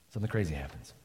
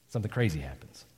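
First: Hushed repeat. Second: Hushed. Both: Shown as a demonstration.

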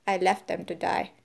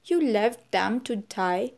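First: Plain statement, falling away on "die"; matter-of-fact answer. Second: Slow question, rising on "die"; shocked question. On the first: Lombard answering Vera's accusation, matter-of-fact. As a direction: answer "I left them to die" as settled fact, no lift. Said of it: "Lombard answered". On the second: Vera staring at Lombard over the abandoned men, questioning. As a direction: ask "You left them to die?" slowly, lifting the end. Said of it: "She said, staring at him". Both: A narrator's reading.

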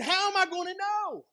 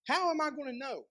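First: High-pitched, disbelieving outburst; hammed-up incredulous question; incredulous doubt. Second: Mild acted doubt at normal volume; understated questioning of a promise; doubtful question. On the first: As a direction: exclaim it in acted disbelief, voice shooting up. Zechariah's doubt, exclaimed retake. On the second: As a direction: ask it doubtfully, without raising the volume. Zechariah's doubt, first take.

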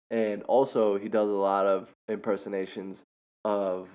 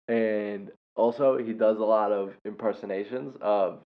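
The two takes are said the same way.

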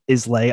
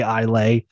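First: ISLAY said as IZ-lay, S voiced; spelling-style pronunciation. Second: ISLAY said as EYE-lay, no S; silent-S pronunciation. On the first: Trying out the whisky region's name, Islay said IZ-lay. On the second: Trying out the whisky region's name, Islay said EYE-lay. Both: Shown as a demonstration. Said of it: "I think it's Isla".

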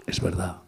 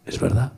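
First: Es verdad repeated much softer, to himself; quiet echo. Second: Said in the usual way. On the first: Shown as a demonstration. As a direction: drop the voice and echo it. Affirms then echoes.

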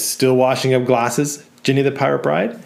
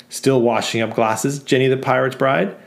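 First: Taunting repeat. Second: Mocking customer. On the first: Acted. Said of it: "Matthew says". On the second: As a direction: drag out the sneer at Jenny. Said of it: "And another says".

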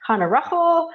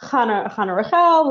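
First: Chana Rachel with Rachel as RUKH-ul, pitched high; higher-voiced quote, Rachel stressed on the first syllable; variant name pronunciation. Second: Chana Rachel with Rachel as ra-KHEL; higher-voiced quote, Rachel stressed on the second syllable; other name pronunciation. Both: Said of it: "so many ways of, of pronouncing these".

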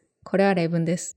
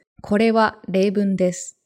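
First: Lower, twice as quick, words run together; casual rapid-fire Japanese; fast, natural speech. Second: Careful, evenly spaced Japanese, every word separate; textbook clarity. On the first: Contrasting real conversation with test audio, fast and natural. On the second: Showing a friend how test audio sounds, textbook clarity. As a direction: JLPT listening-test enunciation. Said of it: "It's like this". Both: Shown as a demonstration.

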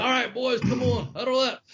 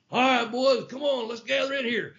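First: High coach's holler to huddle up; imitating the coach's huddle call; coach calling the team. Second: Put-on rally the boys like a football coach; mock coach huddle call; coach calling the team. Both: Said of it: "He's like a damn coach".

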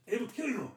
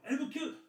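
First: Put-on villain's Russian accent, pitched much higher and softer; hammed-up Russian villain threat; a mock Russian captor threatens the host in a cheesy accent; bad Russian accent. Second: Cheesy Russian villain, pitched much higher and softer; a mock Russian captor repeats his threat in a bad accent. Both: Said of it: "stereotypical shitty accent".

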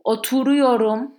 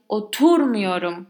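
First: Oturuyorum with every syllable equally loud and high; Oturuyorum, evenly stressed, clear model. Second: Oturmuyorum with a punched TUR; exaggerated stress on TUR in oturmuyorum. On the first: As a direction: give all syllables of Oturuyorum the same weight. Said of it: "When saying the positive form". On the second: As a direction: hit the second syllable of oturmuyorum, TUR, then fall away. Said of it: "That tur is the". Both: Shown as a demonstration.

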